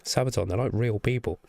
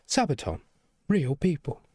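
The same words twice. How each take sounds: First: Said in the usual way. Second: Amused repeat with a laugh. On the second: Real, not acted. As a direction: chuckle through it, a touch higher.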